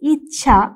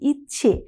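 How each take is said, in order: First: The word ends in an 'a' vowel. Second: The word ends in an 'e' vowel. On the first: This is the older full form. "ইচ্ছে আসছে ইচ্ছা থেকে" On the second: This is the form changed by vowel harmony. "ইচ্ছে একই ধরনের অবস্থানে আমরা থাকছি"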